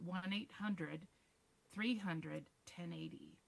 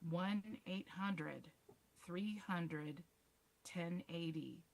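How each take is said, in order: First: The number is said at normal speed. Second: The number is said more slowly.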